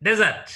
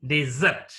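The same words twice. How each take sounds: First: Desert as DE-sert, noun form; first-syllable stress. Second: Desert as de-SERT, verb form; second-syllable stress. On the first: Teacher modelling the noun Desert, stress up front. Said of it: "Desert is noun". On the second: Teacher modelling the verb desert, second syllable stressed. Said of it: "is verb". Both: Shown as a demonstration.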